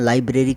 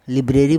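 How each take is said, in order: First: The first syllable is said with an 'eye' sound. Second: The first syllable is said with a short 'i'. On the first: This is how English speakers actually say it. "लेकिन लाइब्रेरी कहते हैं वो English के हिसाब से" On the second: This is how the spelling would suggest it. "लिब्रेरी बनता है वैसे इसका उच्चारण"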